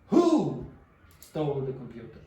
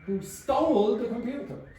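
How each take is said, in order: First: The word who carries the main stress. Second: The word stole carries the main stress. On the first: The question is about which person did it. "The person. Who?" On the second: The question is about what was done to it. "Stole. Exactly"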